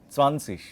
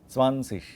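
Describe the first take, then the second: Both takes have the same delivery.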